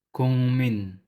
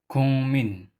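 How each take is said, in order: No difference in how they are said.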